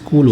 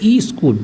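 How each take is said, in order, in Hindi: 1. शब्द सीधे s ध्वनि से शुरू होता है। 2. शब्द से पहले एक अतिरिक्त 'i' स्वर जोड़ा जाता है। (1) "जबकि क्या होता है स्कूल होता है" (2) "लेकिन बोलते हैं ई स्कूल"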